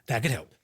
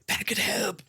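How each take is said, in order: First: It is said in a normal voice. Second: It is said in a whisper.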